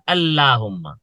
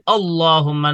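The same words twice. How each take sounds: First: The L sound is thin and light. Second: The L sound is thick and heavy. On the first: The speaker calls it wrong. "not Allahumma" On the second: The speaker calls it right. "So I say Allahumma, ... heavy"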